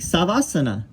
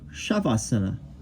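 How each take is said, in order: First: The word begins with a plain s sound. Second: The word begins with an sh sound. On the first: The speaker calls it wrong. "people see this word they and they say sava, like savasana" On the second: The speaker calls it right. "they would know to say it's more like shavasana"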